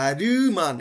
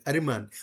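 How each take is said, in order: First: আরিমান with the i stressed and drawn out; wrong way. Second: আরিমান said smooth, the i short and light; আরিমান read as one smooth word; right Korean way. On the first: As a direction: lean hard on the i in আরিমান. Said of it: "ওরা আরিমান এভাবে বলবে না". (ভুল উচ্চারণে আরিমান) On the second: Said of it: "ওরা এভাবে বলবে আরিমান". (সঠিক কোরিয়ান উচ্চারণে আরিমান) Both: Shown as a demonstration.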